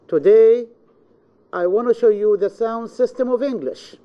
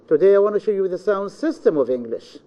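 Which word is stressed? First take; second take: today; sound system. First: The stress falls on the word today. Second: The stress falls on the words sound system. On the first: It is this day, not any other day. "This means this day, not any other day" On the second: It is this subject, not any other subject. "we are going to explain the sound system, not any subject else"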